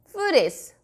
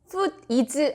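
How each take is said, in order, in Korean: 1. d는 다음 단어로 부드럽게 이어집니다. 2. 두 단어는 끊어서 따로 발음합니다. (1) "거의 food is, food is, food is 같은 느낌으로" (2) "이렇게 딱 띄어서 읽으면 자연스럽게 넘어가지 않으니까"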